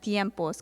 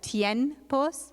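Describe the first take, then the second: First: The nasal before the p is an m. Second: The nasal before the p is an n. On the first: It is read by the rule that turns n into m before b. The speaker calls it right. "converting that noon to a meme sound" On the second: It is read just as the letters are written. The speaker calls it wrong. "looking at it literally, one would want to pronounce it as"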